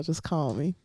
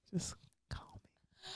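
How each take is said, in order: First: Said in the usual way. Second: Breathy seductive whisper. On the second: Acted. Inviting deaf dudes to call, sultry whisper.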